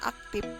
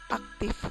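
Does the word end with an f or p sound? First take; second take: p; f. First: The word ends with a p sound. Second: The word ends with an f sound. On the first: The speaker calls it wrong. "dilafalkan aktif" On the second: The speaker calls it right. "semestinya aktif"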